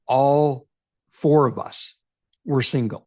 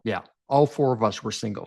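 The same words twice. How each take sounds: First: "All four of us were single" with a pause after each part; slow emphatic phrasing. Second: Said in the usual way. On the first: Shown as a demonstration. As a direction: spell it out slowly so they get it. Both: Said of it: "I need you to understand this".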